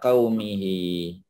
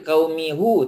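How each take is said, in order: First: The word ends with an 'hi' sound. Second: The word ends with an 'hu' sound. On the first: The speaker calls it right. "Jadi ala qaumihi" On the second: The speaker calls it wrong. "Tak boleh qaumihu, tak boleh"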